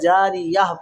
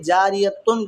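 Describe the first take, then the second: First: The word ends with a soft h sound. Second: The word ends with a full tun sound. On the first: The reader stops on this word. "रुकने के बाद में हाय साकिना" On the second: The reading continues without stopping. "जारियतुन की जगह"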